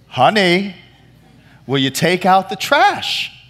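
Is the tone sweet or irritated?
irritated. It is said louder, with growing irritation.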